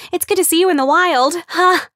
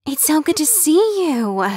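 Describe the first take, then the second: First: Much higher, louder gush; excitable gushing. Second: Much higher, bubbly greeting; excitable gushing. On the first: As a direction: bubble over with delight. Excitable Kim gushing at Amber. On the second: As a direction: gush over her like big news. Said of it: "always sounded breathless". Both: Acted.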